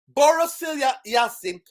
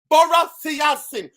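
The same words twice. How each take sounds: First: The name is said slowly and deliberately. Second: The name is said at a normal pace.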